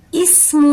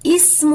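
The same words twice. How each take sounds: First: اسم with a sharp, whistling س; whistled s in ism. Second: اسم with a soft ث, no whistle; soft th in ism. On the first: Teacher shows the whistled س in اسم. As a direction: hiss the س in اسم. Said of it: "سین میں سیٹی کی آواز آئے گی". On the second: Teacher shows the soft ث in اسم. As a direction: say اسم gently, without a hiss. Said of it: "سیٹی سے نہیں بلکہ نرمی سے پڑھیں". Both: Shown as a demonstration.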